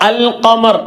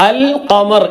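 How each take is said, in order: Both takes have the same delivery.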